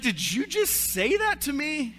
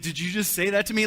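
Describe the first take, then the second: First: Much higher, louder, slow indignant disbelief; shocked wife. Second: Mocking the line back like a three-year-old, a bit louder; childish echo. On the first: Retold or imitated. Wife to husband after his mom joke, high shocked disbelief. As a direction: play the stunned wife, drawing it out. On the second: Husband mimicking his wife, lightly childish mocking echo. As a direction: parrot her like a sulky toddler. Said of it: "I reverted back to, like, a three-year-old".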